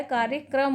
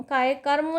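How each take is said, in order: First: कार्यक्रम said as "karya-kram"; correct pronunciation. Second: कार्यक्रम garbled to "kayakarmo"; wrong pronunciation. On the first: Teacher giving students the right form, कार्यक्रम as "karya-kram". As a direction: join k and r in the final "kram" of कार्यक्रम. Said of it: "होता है". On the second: Teacher showing students the error, कार्यक्रम as "kayakarmo". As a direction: move the r after the second ka in कार्यक्रम. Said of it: "नहीं होता है". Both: Shown as a demonstration.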